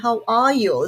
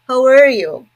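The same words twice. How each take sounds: First: It is said in a British English accent. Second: It is said in an American English accent. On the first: "British people say" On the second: "when you are in America, people is like"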